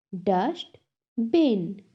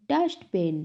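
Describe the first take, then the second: First: "Dustbin" split as dust, bin; syllable by syllable. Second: Said in the usual way. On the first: Shown as a demonstration. Teacher has class repeat, "Dustbin" broken in two. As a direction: clear pause between the halves of "Dustbin". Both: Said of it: "टू syllables में divide".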